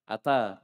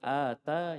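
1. Vokal pertama pendek. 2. Vokal pertama panjang. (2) "Kalau panjang?"

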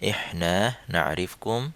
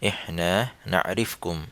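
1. এটি সৌদি উপভাষার উচ্চারণে বলা হয়েছে। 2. এটি সৌদি উপভাষার উচ্চারণে বলা হয়েছে।

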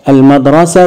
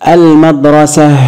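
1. يُنطق الحرف الأخير تاءً. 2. يُنطق الحرف الأخير هاءً. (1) "هتشكلت اتنطقت تاء" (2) "هقف عليها بالسكون المدرسة اتنطقت هاء"

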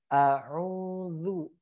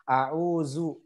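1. Konsonan tengahnya adalah bunyi 'th' yang bersuara. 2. Konsonan tengahnya adalah bunyi 'z' yang bergetar. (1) "di sini adalah huruf zal" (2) "nyasar ke huruf zai"

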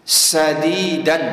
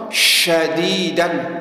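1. Kata ini diawali dengan bunyi s biasa. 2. Kata ini diawali dengan bunyi sh. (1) "Contoh bukan sin, tidak boleh dibaca joshin" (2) "wah baca syadidan, salah"

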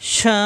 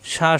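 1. স্বরটি লম্বা করে টানা হয়। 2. স্বরটি ছোট ও দ্রুত। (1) "ততক্ষণ টানতে হবে চার আলিফ" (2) "আমরা জানি হরকতের উচ্চারণ তাড়াতাড়ি"

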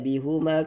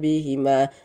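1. Vokal setelah h adalah u. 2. Vokal setelah h adalah i. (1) "tidak dibaca bihuma karena sebelumnya kasrah" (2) "bihima dibaca bihima"

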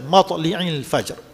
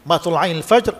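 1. Vokal selepas L ialah i. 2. Vokal selepas L ialah a. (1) "ada baca baris bawah" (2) "ada baca baris atas"

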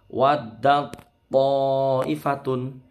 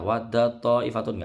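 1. Diucapkan pelan, dengan menahan huruf ta yang bertasydid. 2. Diucapkan terlalu cepat, tanpa menahan huruf ta. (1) "Karena ini seakan-akan bertasydid" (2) "Nggak boleh terlalu cepat ya. Wadda ta'ifatun nggak boleh"

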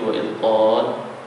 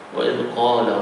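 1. Vokal akhir dipanjangkan sebelum huruf henti. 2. Vokal akhir dibaca pendek, langsung menyambung. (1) "Kalau kita berhenti wa izqala, dia akan jadi mak di sekolah 2, 4 ataupun 6" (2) "Kalau kita wasal, baru jadi mad asli"

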